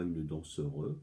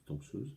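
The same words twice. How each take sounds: First: Danseuse mispronounced as dan-seu-reuse with an extra syllable; wrong pronunciation. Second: Danseuse said plainly as dan-seuze, ending in z; the right way: danseuse, two clean syllables; correct pronunciation. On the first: Teacher shows pupils the wrong feminine form, quietly mocking. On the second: Teacher gives pupils the correct form after the wrong one, softly. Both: Shown as a demonstration. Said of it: "on ne dit pas".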